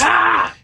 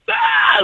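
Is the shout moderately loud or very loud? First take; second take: moderately loud; very loud. First: It is a shout, but not very loud. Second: It is shouted as loud as possible.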